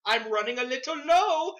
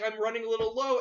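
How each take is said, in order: First: Put-on sitcom character's Indian accent, pitched up; exaggerated Indian-accented line; imitated Indian accent. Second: Said in the usual way. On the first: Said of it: "You did the voice". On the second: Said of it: "he's like".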